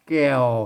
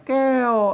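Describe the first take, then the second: First: The word carries the ek tone. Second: The word carries the special tho tone. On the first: "ใส่ไม่เอกไว้แก้วเห็นไหมเสียงเอกนะ" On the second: "เสียงโทพิเศษอ่ะแก้วก็ใส่อันเสียงจะจุดไว้"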